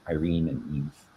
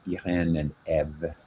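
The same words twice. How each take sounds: First: The accented vowel is not said as an E sound. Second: The accented vowel is said as an E sound. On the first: The speaker calls it wrong. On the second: The speaker calls it right. "you pronounce it like with an E sound"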